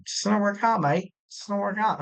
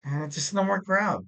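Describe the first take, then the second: First: A badly faked Scottish or Irish accent, lightly done; terrible Scottish accent. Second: Said in the usual way. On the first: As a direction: toss off a jokey Scottish brogue, barely there. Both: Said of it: "Terrible accent".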